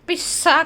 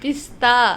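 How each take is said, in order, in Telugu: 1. మధ్యలో పొడవైన 's' మాత్రమే వినిపిస్తుంది. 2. మధ్యలో 's' తర్వాత 't' ఉంది. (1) "పిస్సా కాదు"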